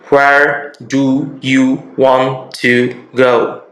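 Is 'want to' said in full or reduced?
full. 'Want to' is said in full, word by word.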